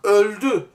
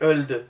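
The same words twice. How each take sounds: First: ألدو with rounded front ö, louder; lips pushed forward. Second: ألدو with spread lips, not rounded; wrong way. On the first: Teacher modelling the right ألدو for students. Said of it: "خلي هيك بوزك لقدام بالتم". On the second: Teacher showing students the mistaken ألدو. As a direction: say ألدو badly, lips flat. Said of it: "لا تعمل هيك ألدو". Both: Shown as a demonstration.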